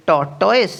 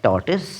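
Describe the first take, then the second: First: টর্টয়েস ending in "toise"; wrong টর্টয়েস, TOISE ending; wrong pronunciation. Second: টর্টয়েস ending in "-tus"; correct pronunciation. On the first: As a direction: mistaken টর্টয়েস with "-toyse". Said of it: "যেটি ভুল". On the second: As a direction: say the right টর্টয়েস as "tor-tus". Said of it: "সঠিক উচ্চারণটি হবে". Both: Shown as a demonstration.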